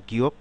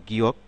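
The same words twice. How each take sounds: No difference in how they are said.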